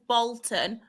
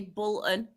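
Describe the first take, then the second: First: The first vowel is an O sound. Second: The first vowel is a U sound. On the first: This is how most people say it. "everyone says Bolton" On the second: This is the speaker's regional way. "I say Bolton because of my accent"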